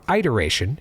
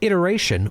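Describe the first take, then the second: First: The word has a Philadelphia local pronunciation. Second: The word has a standard, general pronunciation.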